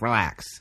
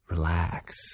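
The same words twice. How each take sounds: First: It is said quickly in an irritated tone. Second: It is said calmly in a sincere tone. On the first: The word is not really meant. The speaker calls it wrong. "very quickly and with a tone that's kind of annoying" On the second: The word is truly meant. The speaker calls it right. "you really commit to saying the word like you really believe it"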